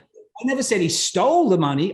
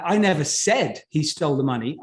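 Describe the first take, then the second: First: The word "stole" carries the strongest stress. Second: The word "said" carries the strongest stress. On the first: He took it some other way. "Okay, he borrowed it" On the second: It was implied, not said. "I implied it, but I wrote it down. I didn't say it"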